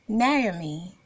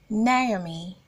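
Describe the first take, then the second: No difference in how they are said.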